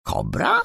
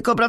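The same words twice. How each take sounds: First: High questioning echo, rising; astonished. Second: Said in the usual way. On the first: A narrator's reading. Małgosia hears a nickname for herself, astonished. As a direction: repeat it in surprise, pitched right up. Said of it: "powtórzyła Małgosia ze zdziwieniem".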